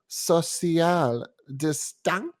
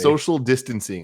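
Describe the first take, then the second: First: The phrase is pronounced in a deliberately mangled way. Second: The phrase is pronounced in the normal way. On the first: This is the joke channel's deliberate mispronunciation. The speaker calls it wrong. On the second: This is the term being looked up. The speaker calls it right.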